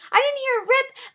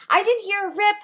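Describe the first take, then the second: First: Much higher, near-squeak; squeaked in total disbelief; squeaky disbelief. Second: Higher, stunned repetition; stunned, baffled repetition; rising disbelief. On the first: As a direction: peak of the baffled panic. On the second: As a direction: keep saying it, more baffled. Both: Real, not acted. That's my sort of freak out.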